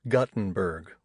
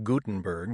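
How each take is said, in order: First: The first syllable sounds like 'gut'. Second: The first syllable sounds like 'goo'. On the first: "like a punch in the gut" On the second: "like the Bible"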